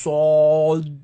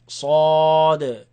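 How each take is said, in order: First: The sound is made with rounded lips. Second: The sound is made with unrounded, relaxed lips. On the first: The speaker calls it wrong. "Don't say sod. Don't use the lips" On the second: The speaker calls it right.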